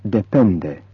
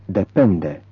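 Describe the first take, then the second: No difference in how they are said.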